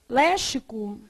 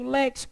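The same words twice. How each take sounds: First: The x is not sounded as ks. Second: The x is sounded as ks. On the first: The speaker calls it wrong. "vai ler léxico e ler como?" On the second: The speaker calls it right. "E o X com som de K S?"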